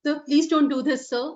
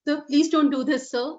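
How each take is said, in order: First: It sounds scared and fearful. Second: It sounds scared and fearful.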